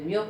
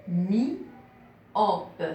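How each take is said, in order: First: Said in the usual way. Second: MYOPE drawn out as MI, then OPE; syllable by syllable. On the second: Shown as a demonstration. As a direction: break myope into spaced syllables with a pause after mi. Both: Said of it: "il y a trois syllabes".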